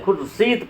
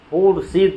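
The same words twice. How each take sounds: First: खुर्शीद with a short u, 'khur-seed'; silent waaw. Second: खुर्शीद with a lengthened 'oo' at the start; sounded waaw. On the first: Teacher showing how it is read, खुर्शीद as 'khur-seed'. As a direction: keep the first vowel of खुर्शीद short. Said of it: "खुर्शीद पढ़ते हैं". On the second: Teacher showing the rejected reading, long first vowel in खुर्शीद. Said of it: "खुर्शीद नहीं पढ़ते हैं". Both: Shown as a demonstration.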